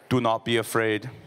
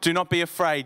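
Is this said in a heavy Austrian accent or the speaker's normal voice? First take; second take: Austrian accent; normal voice. First: It is said in a heavy Austrian-style accent. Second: It is said in the speaker's normal accent.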